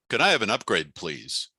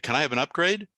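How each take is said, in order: First: The voice comes down subtly at the end. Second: The voice rises at the end like a question.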